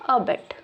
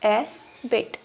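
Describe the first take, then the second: First: The first vowel sounds like 'uh'. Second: The first vowel sounds like 'ay'. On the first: "या इसको आप पढ़ सकते हैं अबिट" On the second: "एबिट क्या पढ़ेंगे आप इसको?"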